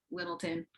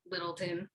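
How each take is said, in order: First: Littleton whispered, quick and clipped; whispered local pronunciation. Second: Littleton said softly and low, run together as one word; local pronunciation. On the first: Repeating how the locals say Littleton, in a whisper. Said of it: "They say it just like that". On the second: Showing how Little Town locals say Littleton, soft and quick. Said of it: "That's how they say it too". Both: Shown as a demonstration.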